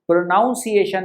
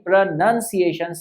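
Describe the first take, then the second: First: The second syllable sounds like 'nown'. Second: The second syllable sounds like 'nun'. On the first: The speaker calls it wrong. "प्रोनाउंसिएशन नहीं" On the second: The speaker calls it right. "प्रोनंसिएशन सही इसका उच्चारण है"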